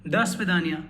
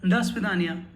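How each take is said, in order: No difference in how they are said.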